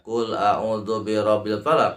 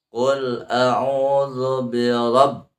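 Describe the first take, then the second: First: "rabbil" run through with no hold on the b; unheld tasydid. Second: RABB pressed and held on the doubled b; held tasydid. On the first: Teacher shows what not to read, "rabbil" unheld. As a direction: recite quickly, skipping the press in "rabbil". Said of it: "Bukan dibaca". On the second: Teacher shows the stressed tasydid, RABB held in slow chant. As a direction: chant slowly and lean hard on "rabb". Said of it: "berarti harus ada penekanan". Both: Shown as a demonstration.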